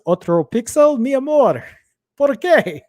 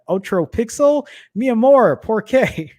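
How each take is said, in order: First: It is said with an attempted Spanish accent. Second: It is said with an English-speaker accent.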